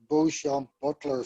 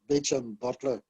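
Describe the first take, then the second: First: The first name is given a French-style pronunciation. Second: The first name is pronounced like English 'Beecham'. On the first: The speaker calls it wrong. "I was calling him Beauchamp Butler for years because in French, looking at it on the page, it looks like Beauchamp" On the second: The speaker calls it right. "actually my father was perfectly correct"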